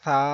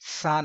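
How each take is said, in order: First: The first sound is soft, without a whistle. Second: The first sound has a sharp whistling hiss. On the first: The speaker calls it right. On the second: The speaker calls it wrong.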